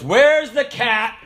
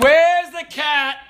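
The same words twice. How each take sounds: First: Slow, lightly voiced stern sergeant; a hint of an angry instructor. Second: Higher, slow demanding sergeant; angry sergeant. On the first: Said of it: "But he goes". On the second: Retold or imitated. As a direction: call out the culprit louder. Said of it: "he said".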